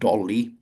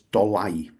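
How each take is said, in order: First: The name sounds like the English word dolly. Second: The name ends with an 'eye' sound. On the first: The speaker calls it wrong. "the place is not called Dolly. That's a child's toy" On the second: The speaker calls it right. "Its um, pronunciation is Dolai"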